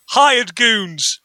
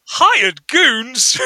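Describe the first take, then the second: First: "Hired goons" as a falling announcement; matter-of-fact answer. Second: "Hired goons" echoed back as a higher question; puzzled echo question. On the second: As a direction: imitate repeating "Hired goons" in disbelief. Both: Retold or imitated. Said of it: "It's got the intonation of".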